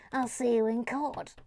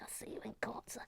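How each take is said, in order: First: Mock indignation at normal volume; playful, voiced outrage; mock threat. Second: Very soft, half-whispered mock threat; hushed, jokey indignation; mock outrage. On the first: Same threat repeated aloud. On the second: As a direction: threaten under your breath in jest. Mock outrage, first muttered take.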